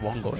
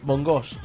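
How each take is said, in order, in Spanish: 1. El acento está en la primera sílaba. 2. El acento está en la última sílaba. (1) "digo, no, bongos" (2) "siempre pone el acento en la última"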